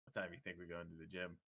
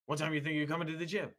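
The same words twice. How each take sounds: First: Low, soft aside to a friend; hushed aside. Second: Lightly voiced caller, higher and quick. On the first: Retold or imitated. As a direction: drop your voice away from the phone. Aside to friend, phone put down. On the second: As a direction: mimic the gym rep's rapid phone question, pitched up. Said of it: "he was talking really loud".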